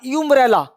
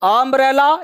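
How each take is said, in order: First: The word begins with a 'yoo' sound. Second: The word begins with an open 'uh' vowel. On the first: The speaker calls it wrong. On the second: The speaker calls it right.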